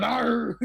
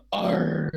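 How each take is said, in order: First: Higher-pitched rousing "arr"; mock crowd of pirates roaring approval; erupting pirate cheer. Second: Half-hearted, downcast pirate "arr"; mock-glum toast from pirates; sad pirate cheer. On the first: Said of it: "erupts, like, you hear a bunch of". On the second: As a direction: groan out a pirate "arr" sadly.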